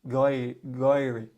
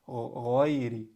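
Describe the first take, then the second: First: The word begins with a hard English g. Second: The word begins with a throaty gh sound. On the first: The speaker calls it wrong. "they'll say غَيْرِ. ... you don't want to say that" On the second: The speaker calls it right. "You want to say غ"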